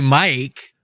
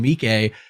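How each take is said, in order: First: The surname sounds like the English name Mike. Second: The surname does not sound like English Mike. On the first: The speaker calls it wrong. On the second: The speaker calls it right.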